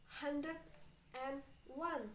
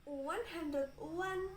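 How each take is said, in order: First: "and" said as its own full word; careful "and". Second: "and" shrunk to a bare n between "hundred" and "one"; natural reduced "and". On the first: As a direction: sound out "and" before "one". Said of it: "I'm saying would and but it sounds". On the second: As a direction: run "hundred 'n one" together. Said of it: "if just say this naturally". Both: Shown as a demonstration.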